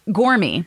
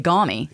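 First: The r after the vowel is pronounced. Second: The r after the vowel is dropped. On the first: "The word gormy" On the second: "in Maine, we say gommy"

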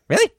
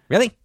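First: The voice is pitched higher. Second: The voice is pitched lower. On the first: The speaker calls it right. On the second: The speaker calls it wrong.

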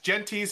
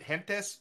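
First: The name is pronounced in an English way. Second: The name is pronounced in a Spanish way.

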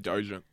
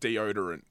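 First: The word is squeezed into two syllables. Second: All syllables of the word are pronounced. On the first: The speaker calls it wrong. "And I used to say dojent" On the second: The speaker calls it right. "I can now pronounce it deodorant"

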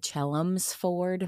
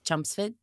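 First: The name is said carefully, with an L sound. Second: The name is said loosely, sounding like Chumpsford. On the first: This is the form outsiders understand. "I have to say it that way" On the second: This is how locals say it. "the way that we say it was Chumpsford"

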